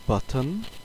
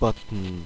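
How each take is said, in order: First: A short schwa vowel comes before the final N. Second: The final N forms the syllable with no vowel. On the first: "With a schwa" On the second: "with syllabic consonants"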